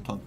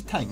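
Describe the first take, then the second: First: تانک said with a long open "aa", like "taank"; the everyday Persian تانک, "taank"; local pronunciation. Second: تنک said with a short front vowel, like "tenk"; the correct English-style تنک, "tenk"; correct pronunciation. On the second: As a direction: say تنک as "tenk", not "tank". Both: Shown as a demonstration.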